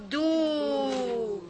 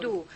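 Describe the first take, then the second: First: A long, drawn-out "do"; long dhamma vowel. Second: A brief "Do", vowel not held; short dhamma vowel. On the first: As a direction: DO held long. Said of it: "which is the long vowel". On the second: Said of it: "which is do". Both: Shown as a demonstration.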